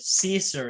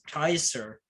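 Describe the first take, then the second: First: The word begins with an S sound. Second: The word begins with a K sound. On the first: The speaker calls it wrong. "that's not at all how you say it" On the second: The speaker calls it right. "it's Kaiser"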